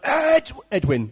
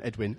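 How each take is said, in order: First: Drawn-out, raised call of a name; dad on the touchline. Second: Said in the usual way. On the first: Retold or imitated. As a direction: imitate a dad calling across the pitch. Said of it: "my dad would stand on the touchline".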